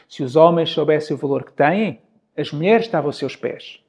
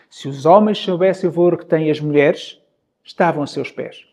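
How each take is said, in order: First: The pause comes right after the word têm. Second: The pause comes right after the word mulheres. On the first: Men would have women at their feet. "Mudo apenas o ponto de pausa e mudo o significado" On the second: Men would be at women's feet. "no momento em que eu faço a pausa muda o significado"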